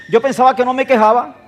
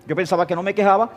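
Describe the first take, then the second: First: Higher and louder, stress on pensaba; emphatic. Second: Said in the usual way. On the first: Real, not acted. (énfasis en "pensaba", más agudo y fuerte)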